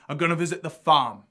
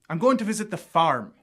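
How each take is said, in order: First: The R in farm is not pronounced. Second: The R in farm is pronounced strongly. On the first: "There's no real heavy R sound there" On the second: "Irish accents will also use this rhotic R"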